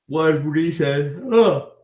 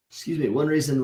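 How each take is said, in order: First: Slow yawning words, higher and louder; stretched words in a real yawn. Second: Said in the usual way. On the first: Real, not acted. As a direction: yawn through the start of the sentence.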